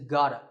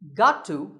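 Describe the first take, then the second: First: The words blend into a reduced 'gotta'. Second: Both words are said fully and separately.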